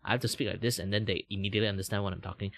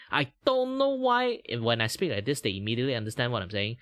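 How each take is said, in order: First: Said in the usual way. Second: Strong Malaysian English accent. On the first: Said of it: "I'm literally saying the same word". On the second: Shown as a demonstration. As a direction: Malaysian English, quick and singsong. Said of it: "Just different pronunciation".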